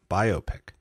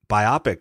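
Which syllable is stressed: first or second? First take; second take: first; second. First: The stress is on the first syllable. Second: The stress is on the second syllable. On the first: It is a picture about a life. The speaker calls it right. "I've always said it biopic, like biography picture" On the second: It sounds like an eye disease. The speaker calls it wrong. "would be like if it was like a disease of the eye"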